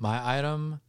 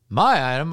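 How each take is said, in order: First: It is said at a normal speaking volume. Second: It is yelled loudly. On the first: The speaker calls it wrong. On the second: The speaker calls it right.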